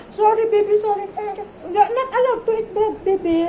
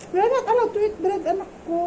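First: Put-on high, sing-song apology to a baby; cooing baby talk. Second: Put-on gentle baby talk. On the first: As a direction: coo the sorry like to a toddler, half laughing. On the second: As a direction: tell the baby no, sweetly and lightly. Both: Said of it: "sabi niya".

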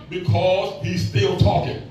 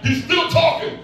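First: Slow, weighty punchline; slow, drawn-out. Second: "still" lifted higher with a rising tune; preacher driving "still" home; stress on STILL. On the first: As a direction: still talking said slowly, leaning on "still". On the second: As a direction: hit the word "still" high. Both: Shown as a demonstration. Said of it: "Y'all get that?".

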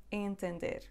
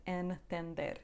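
First: Entender with the first syllable nasalised; Entender, opening on a nasal "in" sound. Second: Entender with a full consonant N after the first vowel; hard N mispronunciation. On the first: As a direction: let the first N of Entender melt into a nasal vowel. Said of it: "nasal N". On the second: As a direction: sound out the N in entender instead of nasalising. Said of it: "It's not entender". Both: Shown as a demonstration.

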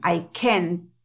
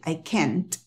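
First: CAN'T cut to "ken", T held silently; "I can't" sounding like "I ken"; unexploded T. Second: CAN'T as "kent" with an audible T burst; low, soft "I can't", popped T at the end; exploded final T. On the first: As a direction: stop the tongue behind the teeth, no T burst on CAN. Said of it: "muchas veces ellos no explotan la T". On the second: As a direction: release the T of CAN'T. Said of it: "En la cabeza de ellos explotan la T". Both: Shown as a demonstration.

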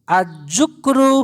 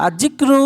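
First: আজুকরু drawn out very slowly with u after j; the mistaken slow আজুকরু, as a slip to correct; wrong reading. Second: আজিক্রু with i after j and a clustered kr, higher and louder; correct reading. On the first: (ভুল উচ্চারণ আজুকরু, খুব ধীরে) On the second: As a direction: say আজিক্রু crisply, the corrected form. (শুদ্ধ উচ্চারণ আজিক্রু, জোর দিয়ে) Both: Shown as a demonstration. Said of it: "এই আজুকরু না".

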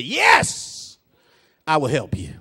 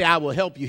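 First: Resounding, stretched "Yes" before the quiet promise; emphatic yes. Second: Said in the usual way. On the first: Acted. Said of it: "is the way he says it". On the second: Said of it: "He doesn't just say".

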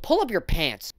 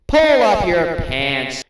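First: Said in the usual way. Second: Drawn out, louder scolding; stern parent dragging each word; slow stern order. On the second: Acted. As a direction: lay it down slowly like a fed-up parent. Slow loud repeat.

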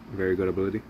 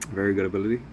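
Both takes have the same delivery.

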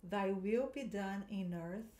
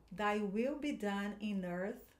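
First: Slow, careful repeat; teacher repeating for students; model line again. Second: Slow, careful pronunciation; teacher modelling for repetition; slow model line. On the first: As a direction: say it slowly once more. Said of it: "De novo". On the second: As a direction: read slowly for echoing. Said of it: "eu vou falando as frases". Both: Shown as a demonstration.

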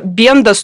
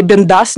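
First: Бендас with the stress on БЕН; stress on first syllable. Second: Бендас with the stress on ДАС; stress on last syllable. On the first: Unsure of a woman's surname, first-syllable stress on Бендас. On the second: Offering another surname reading, final-syllable stress on Бендас. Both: Shown as a demonstration. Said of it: "как правильно ставить ударение".

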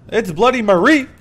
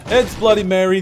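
First: Marie as muh-REE, high and loud; corrected name pronunciation. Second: Mary stressed on first syllable; Mary with the stress up front; mispronounced name. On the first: Shown as a demonstration. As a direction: punch the REE in Marie, rising. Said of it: "Am I saying it right still?". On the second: Real, not acted. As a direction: say Mary as MAIR-ee, higher and louder. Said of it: "I'm sorry I butchered your name".

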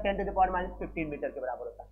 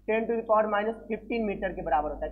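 First: The same value repeated lower and softer; quieter repeat. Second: Said in the usual way. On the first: Shown as a demonstration. Teacher repeating the fermi value to students, softer and lower. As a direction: drop the voice and restate it. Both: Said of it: "कितना होता है?".

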